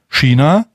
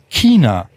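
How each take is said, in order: First: It is said in a Palatinate regional accent. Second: It is said in a Bavarian regional accent. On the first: "die Kurpfalz-Version davon" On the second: "die bayerische Version"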